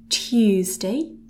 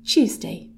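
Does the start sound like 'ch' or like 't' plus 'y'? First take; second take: t plus y; ch. First: The T is followed by a Y sound. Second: The T and Y merge into a Ch sound. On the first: "we've got a bit of a Y sound going on" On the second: "it kind of turns into something a little bit more like a Ch sound"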